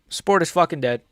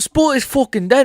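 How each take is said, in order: First: It is said in the speaker's normal American accent. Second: It is said in an attempted British accent.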